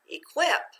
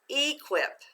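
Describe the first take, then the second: First: The stress is on the second syllable. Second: The stress is on the first syllable. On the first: The speaker calls it right. "Let's try changing the accent. ... That makes more sense" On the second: The speaker calls it wrong. "let's put it together with the accent. ... That doesn't sound quite right"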